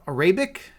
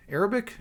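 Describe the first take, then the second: First: "Arabic" said as uh-RAY-bik, questioning; fumbled pronunciation. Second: Said in the usual way. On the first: Real, not acted. Streamer groping for the language's name, "Arabic" mispronounced uh-RAY-bik. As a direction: stumble on "Arabic", stressing a long RAY in the middle. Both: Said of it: "Can't even talk right now".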